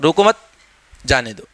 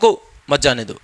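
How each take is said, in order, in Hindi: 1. 'mat' के बाद विराम है। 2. 'roko' के बाद विराम है। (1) "या फिर किसी को जाने देना तो हम कह सकते हैं" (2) "किसी को अगर रोकना है तो ठीक है, उसको इस तरीके से बोल सकते हैं"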